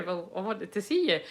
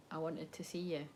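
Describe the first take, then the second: First: Said in the usual way. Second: Very soft, low-pitched confession; vulnerable. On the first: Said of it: "even the way I said it". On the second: Retold or imitated. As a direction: confess it quietly, barely projecting. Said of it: "It's actually quite vulnerable".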